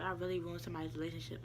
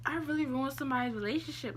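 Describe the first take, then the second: First: Soft, quick mutter to oneself; inner thought. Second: High-pitched guilty realization; retold self-reproach. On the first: Retold or imitated. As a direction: say it low and fast, as if only thinking it. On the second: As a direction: lament it in a raised voice, replaying the thought. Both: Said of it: "I was saying that to myself in my head".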